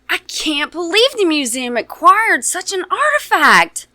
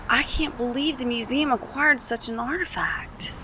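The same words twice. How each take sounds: First: It is said in an excited way. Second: It is said in a matter-of-fact way.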